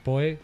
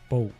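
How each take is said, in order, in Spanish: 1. «Poe» se dice con pronunciación española. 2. «Poe» se dice con pronunciación inglesa. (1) "nosotros diremos Poe, que está muy aceptado también en el ámbito español" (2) "lo normal sería, si estuviéramos en el mundo anglosajón"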